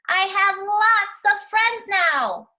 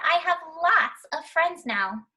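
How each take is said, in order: First: It is said very loudly. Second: It is said at normal, quieter volume.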